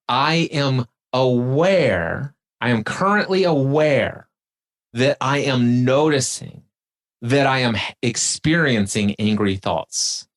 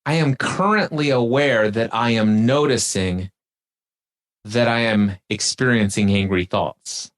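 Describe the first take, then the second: First: Slowly, clause by clause with pauses; slow and deliberate. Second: Said in the usual way. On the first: Shown as a demonstration. Host repeats the phrase slowly, step by step for the guest. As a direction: lay each step down slowly. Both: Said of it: "Now watch this".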